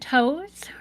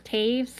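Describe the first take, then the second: First: The surname is said like the word toes. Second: The surname is said like taves, rhyming with waves. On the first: The speaker calls it wrong. "I always want to say Toes, because that's how it's spelled" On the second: The speaker calls it right. "or Taves"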